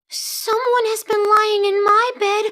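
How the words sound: It is said in a wee little voice.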